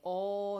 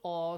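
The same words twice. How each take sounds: First: The vowel is drawn out longer. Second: The vowel is held only briefly. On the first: The speaker calls it wrong. "not aw, no" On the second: The speaker calls it right. "Short aw sound"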